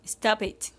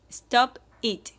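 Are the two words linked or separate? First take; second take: linked; separate. First: The final p joins onto the next vowel. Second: The two words are said separately.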